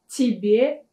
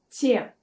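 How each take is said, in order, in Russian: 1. Оба слога произносятся полностью. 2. Оно сокращается до одного слога.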